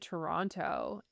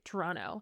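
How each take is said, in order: First: The second T is pronounced as a hard T. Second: The second T is dropped or softened. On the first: The speaker sounds like a tourist. The speaker calls it wrong. "anything with a hard second T" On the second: The speaker sounds like a local. The speaker calls it right.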